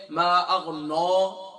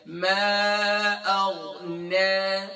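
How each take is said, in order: First: "ما اغنا" with the نا made heavy, sung out wrongly; mock heavy nun. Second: "ما اغنا" very slow, with a light نا after the heavy غ; light nun recitation. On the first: Teacher imitating learners who make the نون heavy. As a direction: chant "ما اغنا" with a thick نون. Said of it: "اکثر کوئی پڑھے". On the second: Shown as a demonstration. Teacher giving the corrected light نون version. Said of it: "ہم اب اسے light کریں گے".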